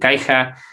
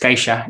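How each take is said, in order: First: The middle consonant is not a 'sh' sound. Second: The middle consonant is a 'sh' sound. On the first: The speaker calls it wrong. "los castellanos a veces quieren decir Caixa" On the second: The speaker calls it right. "pero es Caixa"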